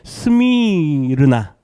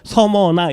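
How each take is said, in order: First: The name is said with four syllables. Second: The name is said with three syllables. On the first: This is the original form of the name. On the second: This is the easier Korean form of the name.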